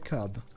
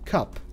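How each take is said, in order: First: The word ends with a b sound. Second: The word ends with a p sound. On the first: The speaker calls it wrong. "I don't know why I say cub" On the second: The speaker calls it right. "Cup, like Cuphead"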